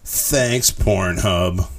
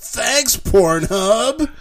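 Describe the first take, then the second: First: It is said in a sarcastic, dry tone. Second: It is said in an excited, enthusiastic tone. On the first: The thanks is not sincere. The speaker calls it wrong. "that sounded sarcastic" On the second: The thanks is sincere and eager. The speaker calls it right. "there was 3 exclamation marks"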